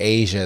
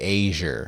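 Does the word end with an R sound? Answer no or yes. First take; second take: no; yes. First: The word ends in a plain vowel. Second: The word ends with an added R sound. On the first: "they don't say Asia" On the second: "they add an R to the end of any words that end in A"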